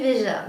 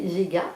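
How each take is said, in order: First: The middle consonant is a soft J sound. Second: The middle consonant is a hard G sound. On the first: The speaker calls it right. "alors qu'en fait on disait Veja" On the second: The speaker calls it wrong. "pendant des mois j'ai prononcé Vega"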